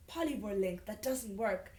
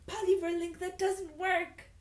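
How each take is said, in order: First: Said in the usual way. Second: Loud mock announcement. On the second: Real, not acted. Reader hitting a second broken dress link, high mock announcement. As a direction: belt out the dead link in a high voice.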